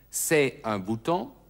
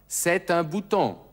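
First: The t of c'est is silent before un. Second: The t of c'est is sounded into un. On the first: The speaker calls it wrong. "Also nicht c'est un bouton" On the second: The speaker calls it right. "Das T von c'est wird mit un verbunden"

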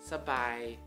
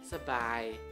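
First: The first syllable has a short reduced vowel. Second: The same.

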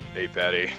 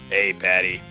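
First: The character voice is weak and barely changed. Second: The character voice is strongly put on and exaggerated. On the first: The speaker calls it wrong. "No, I can do a better voice" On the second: The speaker calls it right. "There we go"

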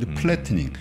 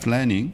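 First: Said with Korean-style syllables, with an added vowel. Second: Said English-style, without the added vowel. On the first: It sounds local, like a domestic speaker. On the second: It sounds like someone who studied abroad.

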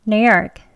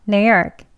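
No difference in how they are said.

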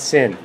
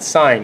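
First: The vowel is short, like in 'fin'. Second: The vowel is long, like in 'fine'. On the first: The speaker calls it wrong. "not sin" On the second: The speaker calls it right. "You want to pronounce that sine"

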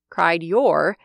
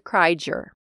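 First: The D and Y are pronounced as separate sounds. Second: The D and Y blend into a J sound. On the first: "Cried your turns to" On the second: "turns to cried your"

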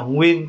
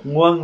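First: The word is pronounced with the vowel 'uyen'. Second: The word is pronounced with the vowel 'uan'. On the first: "mình phát âm là nguyên cũng được" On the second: "nguân là được"

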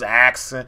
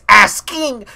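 First: The s and k sounds are swapped, like axing. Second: The s comes before the k, like asking. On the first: The speaker calls it wrong. "they got a whole axe" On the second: The speaker calls it right. "It's asking, S-K"

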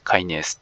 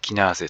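First: It is said kai-nays, English style. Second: It is said kee-nah-zeh, Japanese style. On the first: The speaker calls it right. "英語読みの方が標準です" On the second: The speaker calls it wrong. "日本では非常にこうキナーゼという発音で、えー通ってる"

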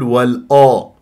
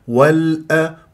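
First: The hamza is pronounced heavy and thick. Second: The hamza is pronounced light and thin. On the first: The speaker calls it wrong. "ليش فخمت الهمزة؟" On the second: The speaker calls it right. "هي مرققة"

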